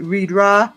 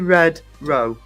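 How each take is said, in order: First: The vowels are changed in a local accent. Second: Both words are said clearly, as spelled. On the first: "because of the local accent, people called it Reed Ra" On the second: "how it's spelled, and it's what you're supposed to say"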